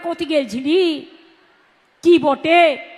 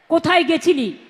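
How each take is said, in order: First: It is said in Birbhum Bengali. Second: It is said in Kolkata Bengali.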